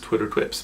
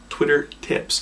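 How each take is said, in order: First: Said fast, the second word sounds like 'twips'. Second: Said clearly, the second word sounds like 'tips'. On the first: The speaker calls it wrong. "if you say that fast, it always comes out Twitter Twips" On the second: The speaker calls it right. "but it's"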